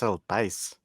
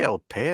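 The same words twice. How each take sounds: First: "Pais" with an eye sound and a final s; corrected Spanish pronunciation. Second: "Pay" ending on an open ay, no final s; French-sounding "Pay", silent ending; French-style pronunciation. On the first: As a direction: say "El Pais" like pah-EES or pice, s sounded. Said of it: "I think that's El Pais". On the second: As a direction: say "El Pay" with "Pay" rhyming with day. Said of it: "You went French". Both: Shown as a demonstration.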